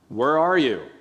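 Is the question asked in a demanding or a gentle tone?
demanding. It is asked in a demanding, searching tone. The asker wants to know the listener's location. The speaker calls it wrong. "This is not the tone"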